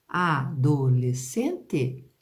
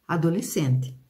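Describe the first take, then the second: First: ADOLESCENTE slowly split as a-do-les-cen-te; syllable by syllable. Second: Said in the usual way. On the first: Shown as a demonstration. Teacher testing the S C sound, separated syllables. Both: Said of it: "quando eu separo a palavra".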